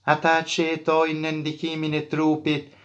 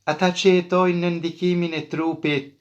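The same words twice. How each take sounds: Both takes have the same delivery.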